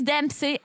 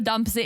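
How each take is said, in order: First: The first vowel is an 'eh' sound. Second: The first vowel is an 'uh' sound. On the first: The speaker calls it right. "So it is Dempsey" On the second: The speaker calls it wrong. "I literally spelled it with a with a U, and that's how I was pronouncing it"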